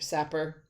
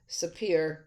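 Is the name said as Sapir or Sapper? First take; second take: Sapper; Sapir. First: The name is said as Sapper. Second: The name is said as Sapir. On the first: "other people call it Sapper. It just doesn't sound right" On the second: "I pronounce it Sapir-Whorf"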